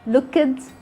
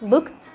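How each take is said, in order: First: The ending is voiced as a separate extra syllable. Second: The ending is said without any extra syllable. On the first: The speaker calls it wrong. "we don't say looked" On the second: The speaker calls it right. "Drop the sound of the E"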